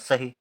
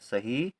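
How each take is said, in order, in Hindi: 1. अंतिम स्वर छोटा और झटके वाला है। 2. अंतिम स्वर लंबा और खिंचा हुआ है। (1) "यदि हम छोटी की मात्रा लिख दें तो हो जाएगा सही" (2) "सही के लिए बड़ी की मात्रा"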